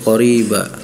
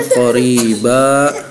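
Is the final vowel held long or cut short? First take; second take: short; long. First: The final vowel is cut short. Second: The final vowel is held for two counts. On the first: The speaker calls it wrong. "dibacanya qoriba, jadi tidak ada panjangnya" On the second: The speaker calls it right. "yang harusnya qoriba"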